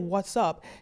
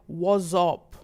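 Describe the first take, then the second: First: It is said in an American accent. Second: It is said in a Nigerian accent. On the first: "He didn't say" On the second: "He said"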